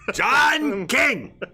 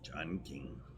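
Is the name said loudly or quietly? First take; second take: loudly; quietly. First: The name is said loudly, projected. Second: The name is said quietly, not projected. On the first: The speaker calls it right. "Can you hear me now? Is that better?" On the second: The speaker calls it wrong. "when you don't project to the microphone"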